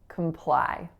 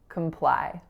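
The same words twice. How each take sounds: First: The first syllable has a reduced schwa vowel. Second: The same.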